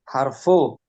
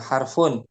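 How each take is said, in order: First: The word ends on a vowel without n. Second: The word ends with an n sound. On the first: The speaker calls it right. "Cara penyebutannya harfu jar" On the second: The speaker calls it wrong. "Bukan harfun"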